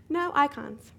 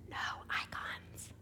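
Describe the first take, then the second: First: Higher, louder disbelief; exclaimed in shock; louder shocked repeat. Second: Breathless hushed whisper; stunned whisper; whispered disbelief. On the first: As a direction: say it again, louder and dismayed. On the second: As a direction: whisper it like you can't believe your eyes. Stunned discovery of empty screen. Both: Retold or imitated.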